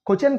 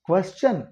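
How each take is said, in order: First: The word is said in a careless, discouraged way. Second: The word is said in a careful, preferred way. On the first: The speaker calls it wrong. "క్వశ్చన్ కాదు" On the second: The speaker calls it right. "ఇంకా బెటర్గా pronounce చేయొచ్చు"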